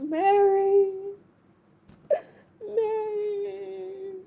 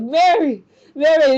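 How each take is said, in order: First: High, drawn-out mock wail, fading softer; heartbroken. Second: High, loud retold cry after someone. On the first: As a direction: imitate a heartbroken lover's long, high call. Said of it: "he's just all heartbroken". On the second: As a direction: call out the name as Francis, high and loud. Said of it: "we see Francis crying out like".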